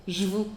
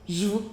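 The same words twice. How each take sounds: No difference in how they are said.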